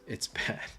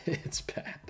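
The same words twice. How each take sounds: First: Says it through a small laugh; a half-laughed scold. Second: The same verdict whispered. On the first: To the audience, the verdict chuckled. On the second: To the audience, a whispered aside. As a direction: drop the voice to a whisper. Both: Acted.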